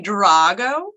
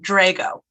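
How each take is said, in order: First: The name is said with an Italian pronunciation. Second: The name is said with an American pronunciation. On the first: This is the original form of the name. "it should be Drago. It's Sicilian" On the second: This is how the family says the name now. "three generations of Rochesterians have made it into Drago"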